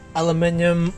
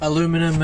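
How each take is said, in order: First: It is said in a non-North-American way. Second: It is said the North American way.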